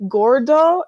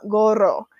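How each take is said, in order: First: "gordo" said with a clear d, GOR-do; wrong word gordo. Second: "gorro" said with a rolled double r, GO-rro; right word gorro. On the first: Trainer correcting the missionary, stressing "gordo". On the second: Trainer correcting the missionary, offering "gorro". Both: Retold or imitated. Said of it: "you said gordo, not gorro".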